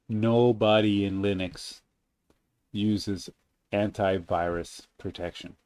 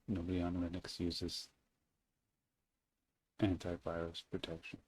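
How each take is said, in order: First: The sentence is said more loudly. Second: The sentence is said at normal volume.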